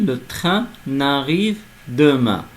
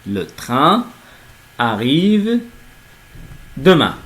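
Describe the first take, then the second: First: An n sound links into the verb. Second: No n sound links into the verb. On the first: It sounds like a negation. The speaker calls it wrong. "si on fait la liaison entre N et le A" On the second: The train is arriving tomorrow. The speaker calls it right. "on ne peut pas donc faire la liaison"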